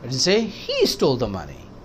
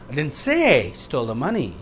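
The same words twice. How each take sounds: First: The stress is on he. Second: The stress is on say.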